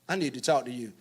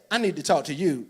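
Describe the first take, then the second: First: It sounds exasperated about someone else. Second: It sounds accusing, aimed at the listener.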